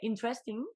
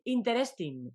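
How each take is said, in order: First: It is said with an English accent. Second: It is said with a Spanish accent. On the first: The speaker calls it right. "porque lo dice mejor" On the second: The speaker calls it wrong. "en lugar de decir interesting"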